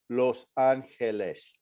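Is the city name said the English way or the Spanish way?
Spanish. The name is said with a Spanish pronunciation. The speaker calls it right. "Just say Los Angeles"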